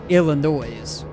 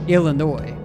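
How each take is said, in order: First: The last syllable ends like 'noise', with a final s. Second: The last syllable ends like 'annoy', no final s. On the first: The speaker calls it wrong. "not Illinois" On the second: The speaker calls it right. "I'm saying it as Illinois"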